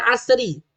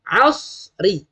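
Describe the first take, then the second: First: "asri" with a thin sin sound; the common mistaken "asri"; wrong pronunciation. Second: "asri" with a thick sad sound; the proper heavy "asri"; correct pronunciation. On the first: Teacher imitating parents' mistaken reading. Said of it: "bukan asri". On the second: Teacher giving parents the correct sound. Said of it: "Sebutan yang betul adalah asri". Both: Shown as a demonstration.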